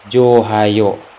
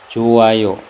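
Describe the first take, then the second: First: An h sound is heard in the middle. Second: No h sound is heard in the middle. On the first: The speaker calls it wrong. "tidak Johayo. Kalau Johayo ini salah" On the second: The speaker calls it right. "tulisannya itu seperti ini, Joayo"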